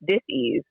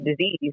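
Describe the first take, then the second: First: The word is split into two separate parts. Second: The word is said smoothly as one unit. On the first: The body is not at ease and not communicating. "I pronounce it dis-ease" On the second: An illness. "not disease"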